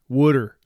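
It is said with a New Jersey accent.

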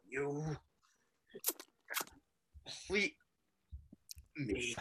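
It is said imitating the Joker's voice.

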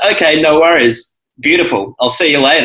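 There is a pause before 'beautiful'.

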